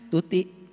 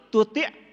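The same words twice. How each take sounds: First: The word ends openly on a plain vowel. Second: The word ends with a catch in the throat. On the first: It is a person's name. The speaker calls it wrong. "Kalau tuti nama orang" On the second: It is the Arabic word for obey. The speaker calls it right.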